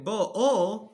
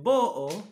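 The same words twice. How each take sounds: First: The stress is on the last syllable. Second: The stress is on the first syllable. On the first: The verb is in the past tense. "utóhangsúlyos" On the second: The verb is in the present tense. "elölhangsúlyos"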